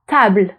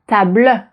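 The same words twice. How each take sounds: First: The stress falls on the a; final e silent. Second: The stress falls on an added final e sound. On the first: The speaker calls it right. "the French accent is going to be on the previous vowel" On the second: The speaker calls it wrong. "It's not going to be table"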